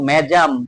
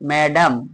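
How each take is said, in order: First: The middle consonant is a J sound. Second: The middle consonant is a plain D sound. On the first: The speaker calls it wrong. "এমন হলো না" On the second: The speaker calls it right. "ডর মতো উচ্চারণ হলো"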